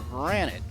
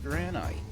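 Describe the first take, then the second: First: The last syllable rhymes with 'bit'. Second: The last syllable rhymes with 'bite'. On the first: "except for granite" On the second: "it should be pronounced granite"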